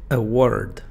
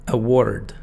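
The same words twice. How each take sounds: Both takes have the same delivery.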